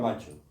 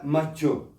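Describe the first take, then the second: First: The stress is on the first syllable. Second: The stress is on the last syllable. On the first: This is how the word is said in Spanish. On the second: This is how the French say the word.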